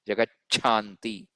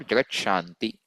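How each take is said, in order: First: The middle 'ch' sound is strongly emphasized. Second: The middle 'ch' sound is slightly softer. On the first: "unless I emphasize my cha" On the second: "Slightly softer"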